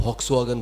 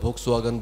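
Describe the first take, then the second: Both takes have the same delivery.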